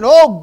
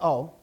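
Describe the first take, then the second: First: It is said as an intense cry. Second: It is said lightly and casually. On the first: It is a heartfelt call to God. The speaker calls it right. "He's crying out" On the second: It is a passing exclamation. The speaker calls it wrong. "that's not just saying"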